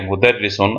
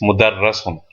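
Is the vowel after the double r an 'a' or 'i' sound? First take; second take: i; a. First: The vowel after the double r is 'i'. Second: The vowel after the double r is 'a'. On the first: The speaker calls it right. "So it makes a E sound" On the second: The speaker calls it wrong. "they will think, well, that's a Fatha, that's a A sound"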